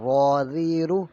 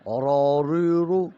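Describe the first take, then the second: First: را ری رو with a full heavy را, slow and loud; correct reading. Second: را ری رو with a thin light را; wrong reading. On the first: Teacher showing the right reading, heavy را slow. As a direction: say را ری رو slowly, را thick and full. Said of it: "صحیح پڑھنے کا طریقہ یہ ہے". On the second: Teacher showing the wrong reading, thin را. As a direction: say را ری رو in a different, thinned voice as the mistake. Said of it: "تو یہ غلط ہو جائے گا". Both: Shown as a demonstration.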